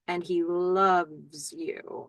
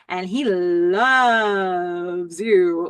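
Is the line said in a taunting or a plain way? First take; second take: plain; taunting. First: It is plain, with "love" kept short. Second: It is taunting, with "love" dragged out.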